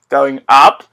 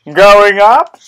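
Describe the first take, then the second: First: Said in the usual way. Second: Higher, louder rising going up; excited. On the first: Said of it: "repeated going up". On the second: Shown as a demonstration. Gamer announcing an elevator ride, excitedly. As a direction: announce the rise with glee. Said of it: "repeated louder higher".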